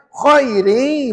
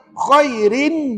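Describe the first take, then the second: First: The word ends without any n sound. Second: The word ends with a clear n sound. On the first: The speaker calls it right. "Dia kena khairi" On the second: The speaker calls it wrong. "disebut rin. Salah"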